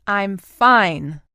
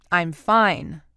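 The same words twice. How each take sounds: First: Louder, insistent repeat of "I'm fine"; repeated firmly. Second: Clipped and tense, mildly louder; through gritted teeth. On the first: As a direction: shut the topic down, pressing harder. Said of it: "she repeated". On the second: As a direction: grit out the words, holding back anger. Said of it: "she gritted". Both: A narrator's reading.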